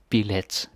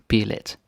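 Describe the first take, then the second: Both takes have the same delivery.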